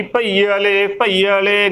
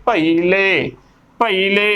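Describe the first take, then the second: First: ਭਈ ਵਾਲੇ as pa-ee-a-le, extra a before le; mispronunciation demo. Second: ਭਈ ਲੈ as pa-ee-le, long ee straight into le; correct pronunciation. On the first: Teacher showing what not to say, mispronounced ਭਈ ਵਾਲੇ. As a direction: say ਭਈ ਵਾਲੇ with an added vowel after the ee. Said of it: "ਗਲਤ ਉਚਾਰਨ ਹੋਵੇਗਾ". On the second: Teacher modelling the word for learners, correct ਭਈ ਲੈ. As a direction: say ਭਈ ਲੈ with no a before the l. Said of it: "ਉਚਾਰਨ ਕਰਨਾ ਹੈ". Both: Shown as a demonstration.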